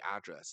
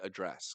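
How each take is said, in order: First: It is said with an American pronunciation. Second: It is said with a British pronunciation. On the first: The speaker calls it wrong. "I hate that I say address" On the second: The speaker calls it right. "It should be address because I'm British"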